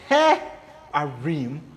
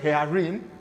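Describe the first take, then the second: First: A short pause splits the word after he. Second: The word is said smoothly without a break. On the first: The speaker calls it right. "you say he-arim, and that is the work of meteg" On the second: The speaker calls it wrong. "Instead of you saying hearim"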